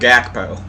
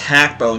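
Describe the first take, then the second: First: The name starts with a hard G sound. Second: The name starts with a soft, breathy H-like sound. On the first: The speaker calls it wrong. "not Gakpo" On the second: The speaker calls it right. "it's Hakpo"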